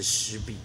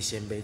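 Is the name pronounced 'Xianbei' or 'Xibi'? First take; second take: Xibi; Xianbei. First: It is pronounced like 'xibi'. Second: It is pronounced like 'xianbei'. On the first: This is the historically correct reading. The speaker calls it right. "正确的读音是湿鄙" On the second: This is the commonly used reading. The speaker calls it wrong. "那两个字不念鲜卑"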